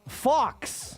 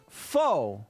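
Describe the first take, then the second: First: The word ends with a clear ks sound. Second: The word ends on a vowel, no ks sound. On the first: The speaker calls it wrong. "I pronounced it like I fucking read it" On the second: The speaker calls it right. "A French word pronounced faux"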